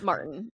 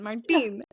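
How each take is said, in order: First: It is said with an English accent. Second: It is said with a Spanish accent.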